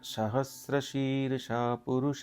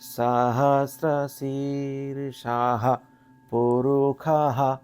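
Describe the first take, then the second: First: It is recited plainly with clear, even pronunciation. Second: The pitch jumps between high, low and middle. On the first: This is the refined form known today. "এই মন্ত্রটা আজকের ডেটে আমাদের কাছে খুব পরিষ্কার" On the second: This is the raw sound as first heard. "Just like এ ECG graph, এরকম করে একটা সাউন্ডের হাই পিচ, লো পিচ, মিডল পিচ"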